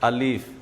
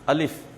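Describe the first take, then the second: First: The second vowel is drawn out long. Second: The second vowel is kept short. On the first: The speaker calls it wrong. "कोई बोलते हैं अलीफ" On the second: The speaker calls it right. "खींचना नहीं"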